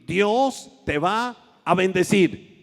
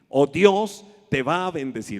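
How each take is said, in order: First: It is said firmly and affirmatively. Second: It is said plainly, without emphasis.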